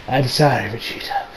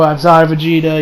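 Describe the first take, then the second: First: Low, hushed, fading to a whisper; subdued apology. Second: Said in the usual way. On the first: Retold or imitated. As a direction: apologise softly under the breath.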